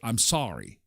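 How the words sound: Sorry is said with an American accent.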